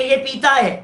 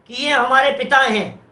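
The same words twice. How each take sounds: First: पीता with a long ee sound; long vowel. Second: Said in the usual way. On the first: Shown as a demonstration. Teacher shows a wrong vowel, saying पीता. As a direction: stretch the ee in पीता. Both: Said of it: "अरे पिता है कि पीता है?".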